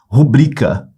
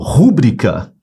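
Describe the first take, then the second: First: The stress is on the second syllable. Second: The stress is on the first syllable. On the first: The speaker calls it right. "Sílaba forte é o bri. ... Essa é a pronúncia correta" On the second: The speaker calls it wrong. "se você falou rúbrica, você pronunciou errado"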